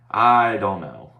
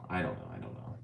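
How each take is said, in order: First: Louder, slow drawn-out I don't know. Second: Softer and softer until it vanishes; fading away. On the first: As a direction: stretch it out loud and slow. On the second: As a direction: let it die out to nothing. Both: Shown as a demonstration.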